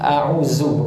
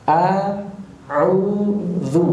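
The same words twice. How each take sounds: First: The middle consonant is a buzzing z sound. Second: The middle consonant is a voiced th sound. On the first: The speaker calls it wrong. "bukan a'udzu, bukan zai" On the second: The speaker calls it right. "Ujung lidah ketemu ujung gigi seri atas"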